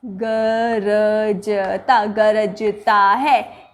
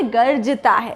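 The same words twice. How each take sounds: First: गरजता stretched very slowly and low; slow low गरजता, marked as not right; drawn-out wrong take. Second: Said in the usual way. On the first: Shown as a demonstration. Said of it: "ये नहीं". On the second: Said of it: "ये ज़्यादा उचित है".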